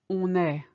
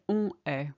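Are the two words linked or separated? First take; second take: linked; separated. First: The two words are linked together. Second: The two words are said separately. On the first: The speaker calls it right. "You had it earlier with on est" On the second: The speaker calls it wrong. "We don't say on est"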